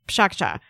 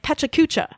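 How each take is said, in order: First: The word is clipped into about two syllables. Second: The word is spelled out in four full syllables. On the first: The name imitates the sound of chatter. "a nonsense word that conjures the sound of people like talking" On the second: The name is read from its spelling. "because of the way it's spelled, everybody in class is pronouncing it"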